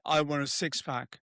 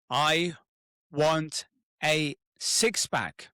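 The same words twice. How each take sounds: First: It is said flatly with no emotion. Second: It is said loudly with strong conviction. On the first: The speaker does not really care. The speaker calls it wrong. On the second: The speaker truly commits to the goal. The speaker calls it right. "say it really out loud with conviction"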